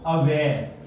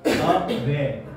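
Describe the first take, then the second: First: Said in the usual way. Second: अवेयर split as अ-वेयर; two separate syllables. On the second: Shown as a demonstration. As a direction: say अवेयर in two distinct parts. (अवेयर को दो हिस्सों में तोड़कर) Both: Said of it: "दो parts में इसको बोला जाता है".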